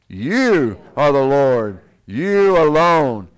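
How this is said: It is read with conviction and feeling.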